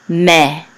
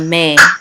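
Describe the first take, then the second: First: The vowel is a plain 'eh' sound. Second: The vowel is a gliding 'ay' sound.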